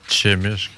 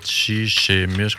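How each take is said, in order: First: The syllable chi is said once before mishk. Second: The syllable chi is said twice before mishk. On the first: The speaker calls it right. "on dit" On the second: The speaker calls it wrong. "On dit pas"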